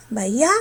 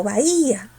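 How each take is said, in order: First: "bahía" said as bai-Á, force on the final A; stress on last A. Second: "bahía" said as ba-Í-a, long stressed I. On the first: Teacher testing a wrong option, final A stressed in bahía. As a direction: glide through "bahía" and land on the last A. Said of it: "¿Pero quién tiene la fuerza?". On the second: Teacher offering the right option, stressed I in bahía. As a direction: draw out the I in "bahía". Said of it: "la que va a tener la fuerza es la cerrada". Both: Shown as a demonstration.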